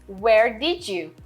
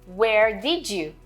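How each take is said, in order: The two takes are said the same way.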